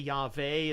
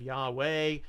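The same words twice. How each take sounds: First: The middle consonant is a V sound. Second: The middle consonant is a W sound. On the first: "there is no W sound in Hebrew" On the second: "instead of"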